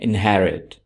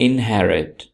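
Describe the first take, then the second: Both takes have the same delivery.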